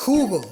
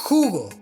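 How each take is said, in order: Both takes have the same delivery.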